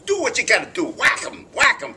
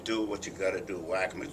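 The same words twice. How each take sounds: First: Loud, high New York tough guy; hammed-up New York accent. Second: Said in the usual way. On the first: Shown as a demonstration. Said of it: "I had to do a New York accent". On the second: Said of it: "instead of saying".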